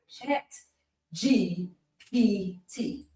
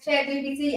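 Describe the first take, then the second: First: The phrase is said slowly and carefully. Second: The phrase is said quickly and runs together. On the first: "Ain't said that slow" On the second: "if you say it too fast"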